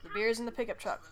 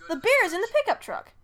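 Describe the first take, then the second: First: Said in the usual way. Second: Beer's higher and louder, falling end; excited take. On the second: Shown as a demonstration. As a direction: say it with a bright excited lift. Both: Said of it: "distinguish different inflections".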